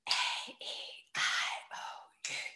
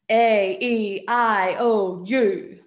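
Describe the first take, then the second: First: It is said in a whisper. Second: It is said in a loud voice.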